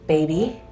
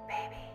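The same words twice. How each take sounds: First: It is said in a normal voice. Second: It is said in a whisper.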